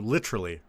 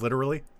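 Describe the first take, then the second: First: It is said in an Australian accent. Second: It is said in a non-Australian accent. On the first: "you also do literally" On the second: "Instead of literally"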